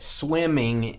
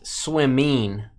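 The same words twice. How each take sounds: First: The ending is a full 'ing' sound. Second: The ending is clipped to an 'in' sound.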